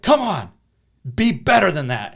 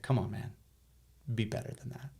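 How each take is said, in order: First: "Come on, be better than that" shouted loud and high; a principal yelling at a boy; abrasive yell. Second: "Come on, man, be better than that" said softly and kindly; a principal gently encouraging a boy; gentle encouragement. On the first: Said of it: "a little abrasive". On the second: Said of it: "his tone just totally changed". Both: Retold or imitated.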